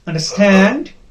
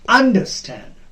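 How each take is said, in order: First: The stress is on the last part. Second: The stress is on the first part. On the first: The speaker calls it right. "The second part will be stressed" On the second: The speaker calls it wrong. "We do not pronounce it as understand. No, that is wrong"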